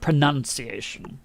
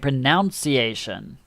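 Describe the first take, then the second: First: It is said the way most English speakers say it. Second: It is said the way New Zealanders say it. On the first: "I will say it like the rest of the world" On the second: "here in New Zealand, they say pronunciation"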